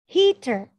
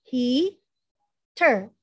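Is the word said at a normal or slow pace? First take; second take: normal; slow. First: The word is said at normal speed. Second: The word is said slowly and drawn out.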